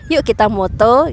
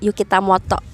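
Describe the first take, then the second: First: It is said as a plain Indonesian phrase. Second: It is said like a Japanese personal name. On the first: It invites people to take photos together. "bisa jadi yuk kita moto" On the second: It sounds like a Japanese person's name. "nama Jepang Yukita Moto"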